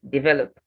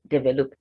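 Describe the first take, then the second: First: The stress is on the second syllable. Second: The stress is on the first syllable. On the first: The speaker calls it right. "stressed on the second syllable" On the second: The speaker calls it wrong. "not develop"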